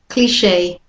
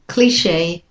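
The two takes are said the same way.

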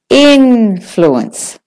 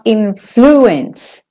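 First: The stress is on the first syllable. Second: The stress is on the second syllable. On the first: The speaker calls it right. "In is your stressed, main stressed syllable" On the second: The speaker calls it wrong. "It's not influence"

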